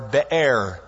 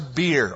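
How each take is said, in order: First: It is split into two syllables, be-er. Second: It sounds like the English word beer. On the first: The speaker calls it right. "It would be the better translation, or pronunciation" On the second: The speaker calls it wrong. "It's not like a brewery or anything out there"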